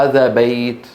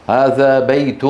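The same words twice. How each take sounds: First: هذا بيت ending on a bare t, bayt; pausal form. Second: هذا بيت with بيت ending in -un, baytun; connected form. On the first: Teacher shows how Arabs stop, بيت as bayt. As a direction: drop the tanween and stop on the ت of بيت. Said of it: "يقفون عليها". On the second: Teacher shows the connected form, بيت as baytun. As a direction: sound the tanween -un at the end of بيت. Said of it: "في الوصل، في الوقف". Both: Shown as a demonstration.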